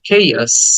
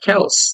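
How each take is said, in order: First: The first vowel is drawn out. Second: The first vowel is short. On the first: The speaker calls it right. "আটাকে টেনে বলতে হবে" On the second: The speaker calls it wrong. "এটাকে আমরা chaos বলে অভ্যস্ত, but it's not chaos"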